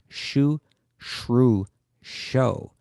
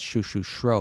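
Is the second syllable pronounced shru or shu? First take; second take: shru; shu. First: The second syllable is shru, the last sho. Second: The second syllable is shu, the last shro. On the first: The speaker calls it right. "It's shu shru sho" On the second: The speaker calls it wrong. "it's not shu shu shro, because it's much easier to say that way"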